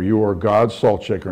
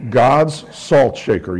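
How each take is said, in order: First: Said in the usual way. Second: "God's salt shaker" drawn out slow and louder, each word weighted; slow emphatic. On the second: Shown as a demonstration. Pastor naming the congregation's calling, slow and emphatic. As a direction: lay down "God's salt shaker" slowly, like a title.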